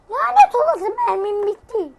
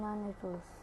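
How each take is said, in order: First: Much higher, loud cursing yell; high angry shout at the empty gun; furious outburst. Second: Said in the usual way. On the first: Real, not acted. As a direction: explode at running out of ammo. Missed the shot, out of bullets.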